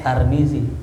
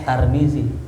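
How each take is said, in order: First: The name is said with a then i. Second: The name is said with a then i.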